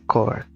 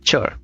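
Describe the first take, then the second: First: The word begins with a 'k' sound. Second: The word begins with a 'ch' sound. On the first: The speaker calls it wrong. "not a core" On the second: The speaker calls it right. "chore is like C H from chocolate"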